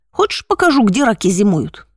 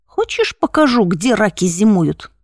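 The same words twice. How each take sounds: First: Слегка озвученный наглый хулиган, с издёвкой; поддень его лениво, как уличный громила; задира. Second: Первое «Хочешь» резко вверх, дальше с нажимом; надвигайся на него, повторяя угрозу; напирающий задира. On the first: (лёгкая издёвка задиры) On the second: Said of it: "переспросил он, надвигаясь на меня". (с напором и угрозой) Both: Acted.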